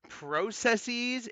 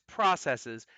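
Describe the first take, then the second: First: The word is said with a British pronunciation. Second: The word is said with a non-British pronunciation.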